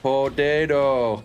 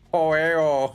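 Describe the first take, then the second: First: The t sounds are clearly pronounced. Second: The t sounds are dropped.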